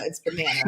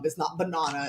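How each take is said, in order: First: "banana" said puh-NAN, way up high. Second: "banana" said as buh-NAH-nuh; banana with flat a. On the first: Friend showing the right way, "banana" squeaked high. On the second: Friend showing the wrong way to say it, "banana" as buh-NAH-nuh. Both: Shown as a demonstration.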